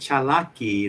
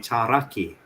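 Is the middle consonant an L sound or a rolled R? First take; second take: L sound; rolled R. First: The middle consonant is an L sound. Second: The middle consonant is a rolled R. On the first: This is how most speakers say it today. "instead of saying chalaki" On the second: This is the old South Carolina dialect. "they would say charaki. That rolling R is dead"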